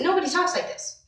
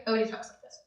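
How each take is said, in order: First: Higher, overdone delivery of "nobody talks like this"; exaggerated talk. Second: "Nobody talks like this" said much softer, half swallowed; quiet demo. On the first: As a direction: say "nobody talks like this" pitched up and showy. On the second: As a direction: drop "Nobody talks like this" to a soft murmur. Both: Shown as a demonstration.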